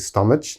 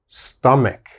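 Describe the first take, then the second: First: The middle consonant is a soft ch sound. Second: The middle consonant is a hard k sound. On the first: The speaker calls it wrong. "please don't say stomach. Never say that" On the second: The speaker calls it right. "Strong K sound here"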